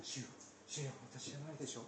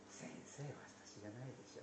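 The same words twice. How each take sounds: First: Quick, hushed, a little distant; group murmur. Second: Near-voiceless whisper, much softer. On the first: Disciples murmuring around the table, quick and hushed. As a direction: let it ripple round the table. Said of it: "ずらっとその声が". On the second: Judas alone whispering to Jesus, nearly voiceless. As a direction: breathe it out alone, set apart from the murmur. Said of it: "でも、ここのところで". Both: Retold or imitated.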